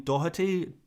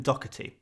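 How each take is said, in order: First: Careful try at Doherty, breathing the middle consonant as h; attempted Irish pronunciation. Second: Doherty with a hard k in the middle; anglicised Doherty, said "DOCK-uh-tee"; k sound replacement. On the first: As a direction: say Doherty as "DOH-huh-tee". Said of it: "better than Doherty". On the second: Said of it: "the k sound is". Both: Shown as a demonstration.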